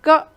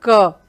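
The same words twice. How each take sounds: First: The k is said bare, without a vowel. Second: The k is said fully, with a vowel. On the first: "पहले बार ने आपने आधा सुना" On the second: "दूसरी बार में आपने पूरे क का उच्चारण सुना"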